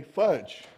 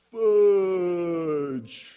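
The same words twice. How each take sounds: First: Said in the usual way. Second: One long, slow-motion word sliding gently down; drawn-out exclamation. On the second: Retold or imitated. Boy drops the hubcap and curses, in slow-motion drawl. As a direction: stretch the word out as if time slows.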